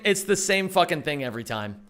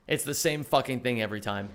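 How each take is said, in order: First: Said in the usual way. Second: Quieter repeat. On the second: Real, not acted. Streamer grumbles the line again to himself, lower and softer. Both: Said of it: "repeated line".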